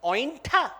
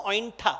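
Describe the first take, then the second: First: Mildly appalled one-word question; horrified disbelief. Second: Said in the usual way. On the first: Acted. Lakshman recoiling from the bitten fruit, mild horror. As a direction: query it as if recoiling. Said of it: "recoils in horror and says". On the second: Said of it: "That's the Odia word".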